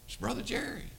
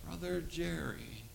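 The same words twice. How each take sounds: First: High-pitched gentle reminder of who it is; retold coaxing introduction. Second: Soft, drawn-out imitation of a drugged boy; slow dazed speech. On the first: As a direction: coax recognition from a vacant listener. Retold coaxing the vacant boy. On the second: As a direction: speak as if slowly recognizing someone. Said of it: "And he talked like that".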